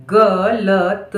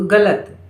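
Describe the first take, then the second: First: Very slow dictation; syllable by syllable. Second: Said in the usual way. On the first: Shown as a demonstration. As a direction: stretch each sound of गलत. Dictating word sound by sound.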